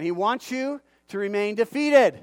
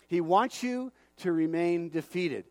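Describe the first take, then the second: First: Louder, driving the point home on "defeated"; louder repeat. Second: Slow, deliberate delivery, every word laid down; slow and weighty. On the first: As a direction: say it again, louder, hitting "defeated". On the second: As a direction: let it sink in slowly. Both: Shown as a demonstration. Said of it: "I'm gonna say it again".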